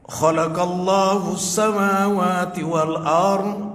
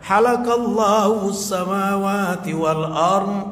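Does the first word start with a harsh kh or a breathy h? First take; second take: harsh kh; breathy h. First: The first word starts with a harsh, rasping kh. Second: The first word starts with a breathy h. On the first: God created the heavens and the earth. The speaker calls it right. "Allah telah menciptakan langit dan bumi" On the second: God shaved the heavens and the earth. The speaker calls it wrong. "Tapi dia baca"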